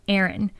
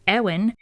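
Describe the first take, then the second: First: The middle consonant is a clear R sound. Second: The R sound is replaced by a W sound. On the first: The speaker calls it right. "it's Erin" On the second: The speaker calls it wrong. "I pronounced them as W's"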